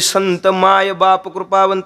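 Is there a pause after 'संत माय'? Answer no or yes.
no. The phrase is said straight through without pausing. "असं लगट म्हणत नाहीत मी आता म्हणल्यासारखं"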